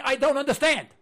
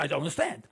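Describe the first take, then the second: First: "I don't understand" said louder and higher, stressing understand; "I don't understand" pushed out loud; emphatic. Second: Said in the usual way. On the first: Shown as a demonstration. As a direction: declare "I don't understand" with mild exasperation. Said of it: "To this day, I'm saying". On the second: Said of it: "I'm still saying".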